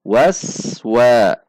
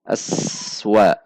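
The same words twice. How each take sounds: First: Waswa said smoothly with no gap; joined correctly. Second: Aswa with a break between as and wa; wrong split. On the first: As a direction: glide through Waswa in one breath. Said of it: "Itu terpisah". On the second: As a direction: pause inside Aswa as a mistake. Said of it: "jangan sampai dibaca aswa". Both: Shown as a demonstration.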